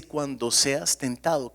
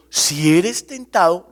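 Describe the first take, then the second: First: "cuando seas tentado" said slowly, evenly, at normal level; preacher giving the real wording, slow and measured; correct wording, slow. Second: "eres" hit loud and slow; preacher showing what James did not write, loud and slow; wrong wording stressed. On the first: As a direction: lay out "cuando" calmly as the true version. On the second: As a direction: lean hard on "Si eres" as the rejected version. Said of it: "Santiago no escribió". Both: Shown as a demonstration.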